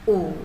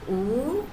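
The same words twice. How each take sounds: First: The pitch dips, then rises. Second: The pitch rises upward. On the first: "turun dulu sebentar, baru perlahan naik ke atas" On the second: "Nada yang kedua naik ke atas ya"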